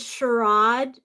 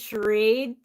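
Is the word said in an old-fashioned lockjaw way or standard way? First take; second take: lockjaw; standard. First: It is said in an old-fashioned East Coast way. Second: It is said in an ordinary modern way. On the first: "I said charade before" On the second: "instead of charade"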